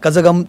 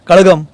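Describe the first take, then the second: First: The middle consonant is a J sound. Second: The middle consonant is a retroflex L sound. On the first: The speaker calls it wrong. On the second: The speaker calls it right.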